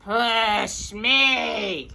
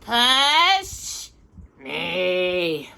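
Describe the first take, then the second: First: Shouted with force on me; yelling again. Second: Yelling. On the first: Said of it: "Danny yelled again". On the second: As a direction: call out to his brother. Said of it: "Danny yelled to his brother". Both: Acted.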